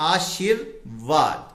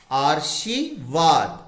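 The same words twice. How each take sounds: First: आशीर्वाद with the r said just before व, as आ-शीर-वाद; correct pronunciation. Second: आर्शीवाद said slowly, with the r sound before श as in आर; wrong pronunciation. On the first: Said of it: "तो व से पहले बोला जाएगा". (आशीर्वाद सही उच्चारण, व से पहले र बोलते हुए) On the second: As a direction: say आर्शीवाद slowly, putting the r before श, as the common mistake. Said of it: "आर्शीवाद तो कोई शब्द ही नहीं होता". (आर्शीवाद धीरे से, श से पहले र बोलते हुए, गलत उच्चारण) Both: Shown as a demonstration.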